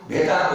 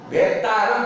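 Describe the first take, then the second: First: Bhetāram with a single t, as the mistake; dropped half t in bhetāram. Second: Bhettāram with the half t restored; doubled t in bhettāram. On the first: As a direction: leave out the doubled t in bhettāram. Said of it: "आधा तो छूट गया". (भेतारम में छूटा आधा त) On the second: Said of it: "भेटारम बोलना चाहिए". (भेत्तारम में आधे त पर ज़ोर) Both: Shown as a demonstration.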